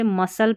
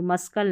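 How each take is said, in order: First: मसल्स with a silent C; correct pronunciation. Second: मस्कल with the C sounded as K; wrong pronunciation. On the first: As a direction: say मसल्स, no K after S. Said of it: "इसे मसल्स पढ़ते हैं". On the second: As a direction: say मस्कल with a K after S. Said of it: "मस्कल नहीं". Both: Shown as a demonstration.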